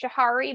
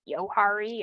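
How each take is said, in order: First: The word begins with a J sound. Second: The word begins with a Y sound. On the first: This is how the spelling suggests it is said. "It looks like it's pronounced Johari" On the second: This might be the original pronunciation. "maybe it's something like Yohari"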